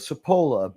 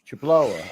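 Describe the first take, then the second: First: The name begins with an s sound. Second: The name begins with a ch sound. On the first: This is how the family says it. "Family says it with a Cipolla" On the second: This is the Italian way to say it. "but Italian way is"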